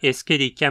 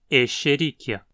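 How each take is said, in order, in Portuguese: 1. O 'sch' é pronunciado como 'sk'. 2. O 'sch' é pronunciado como 'sh'. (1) "há quem diga Escherichia mesmo" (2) "o mais adequado seria pronunciar como um X"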